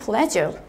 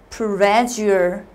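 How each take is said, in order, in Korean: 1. 이 단어는 빠르고 부드럽게 발음합니다. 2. 이 단어는 소리 하나하나 천천히 발음합니다.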